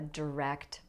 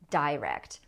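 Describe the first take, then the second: First: The stress is on the second syllable. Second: The stress is on the first syllable.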